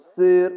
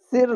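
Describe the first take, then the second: First: সির with a heavy, full-mouthed s; thick sir. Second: সির said with a thin, light s, the wrong way; wrong thin sir. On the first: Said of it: "মোটা করে পড়লাম". (মোটা করে সির উচ্চারণ) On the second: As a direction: say সির thin on purpose to show the mistake. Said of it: "সির না বলে". (পাতলা করে ভুল উচ্চারণে সির) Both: Shown as a demonstration.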